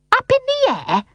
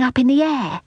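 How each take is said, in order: First: Shrieky high indignant echo; very high, affronted nanny; high and angry. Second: Put-on higher child's voice, falling at the end; lightly voiced earnest boy; explaining boy. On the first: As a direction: throw it back sky-high in outrage. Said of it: "voice was high and angry". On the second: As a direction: finish the explanation innocently. Boy's explanation, before nanny's echo. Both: A narrator's reading.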